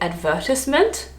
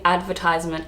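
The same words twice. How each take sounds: First: It is said the British way. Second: It is said the Australian way. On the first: "you would say advertisement" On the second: "I would say advertisement"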